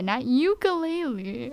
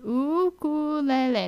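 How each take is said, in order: First: "ukulele" said you-kuh-LAY-lee; mock wrong pronunciation. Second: "Ukulele" said oo-koo-leh-leh, slow and clear; Hawaiian pronunciation. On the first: Vlogger imitating mainland speakers, wrong pronunciation. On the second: Vlogger teaching viewers, Hawaiian pronunciation. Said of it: "Say it with me". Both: Shown as a demonstration.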